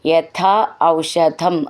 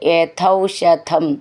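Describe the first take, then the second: First: The two words are said separately. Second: The two words are merged into one.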